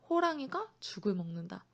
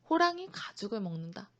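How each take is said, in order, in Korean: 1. 쉬는 부분은 '호랑이가' 뒤, '죽을' 앞에 있어요. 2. 쉬는 부분은 '호랑이' 뒤, '가죽을' 앞에 있어요.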